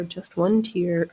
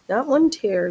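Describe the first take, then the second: First: "tier" said slowly as "teer", rhyming with "ear"; correct pronunciation. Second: "tier" said like "tear", rhyming with "air"; wrong pronunciation. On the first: Correcting the quilt word, slow careful "tier" as "teer". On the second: Correcting the quilt word, "tier" said as "tair". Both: Shown as a demonstration.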